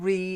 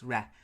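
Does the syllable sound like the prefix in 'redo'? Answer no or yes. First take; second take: yes; no. First: It sounds like the prefix in 'redo'. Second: It does not sound like the 'redo' prefix. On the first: The speaker calls it wrong. "it's not re, it's a false prefix. It's not like to redo something" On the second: The speaker calls it right. "it's re, reconnoiter"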